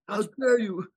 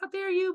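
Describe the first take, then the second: First: The imitation is said in a deeper voice. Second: The imitation is said in a higher voice. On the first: The speaker calls it right. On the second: The speaker calls it wrong.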